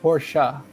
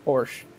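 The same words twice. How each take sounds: First: The word is said in a fancy, refined way. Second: The word is said in a plain, ordinary way. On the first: The speaker is being posh. "if they're very fancy, they'll say Porsche" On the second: This is how most people say it. "most people here in America would just say Porsche"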